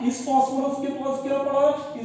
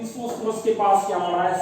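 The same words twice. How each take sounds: First: Higher, pointed quizzing tone; raised question. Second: Said in the usual way. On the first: Shown as a demonstration. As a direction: throw the question up at the class. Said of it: "repeated question, marked take". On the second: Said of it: "repeated question, plain take".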